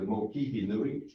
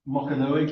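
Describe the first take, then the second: First: The middle has two syllables, 'ki' and 'hi'. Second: The middle is a single 'ka' syllable. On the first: The speaker calls it right. "it's actually the Mokihi Nui" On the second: The speaker calls it wrong. "people talk about the Mokanui"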